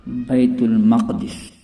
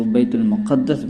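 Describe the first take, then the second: First: بیت المقدس said "bait-ul-maqdis", single d then i; correct pronunciation. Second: بیت المقدس said "bait-ul-muqaddas", with doubled d; common mispronunciation. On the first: Teacher giving viewers the correct form, بیت المقدس as "maqdis". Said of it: "اس کا صحیح تلفظ ہے". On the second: Teacher showing how people say it, بیت المقدس as "muqaddas". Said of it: "عام طور پر لوگ اس کو". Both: Shown as a demonstration.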